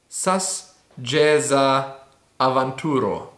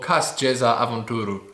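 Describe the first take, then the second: First: The first word begins with an s sound. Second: The first word begins with a k sound. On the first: "it could be sas" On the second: "I would read this as cas"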